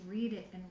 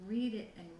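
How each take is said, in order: Both takes have the same delivery.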